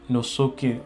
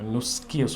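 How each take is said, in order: First: A short u vowel separates the s and k. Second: The s and k are joined without a vowel. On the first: The speaker calls it right. "നുസുക്കി എന്ന് തന്നെ പറയണം" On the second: The speaker calls it wrong. "നുസ്കി സുക്കൂനല്ല"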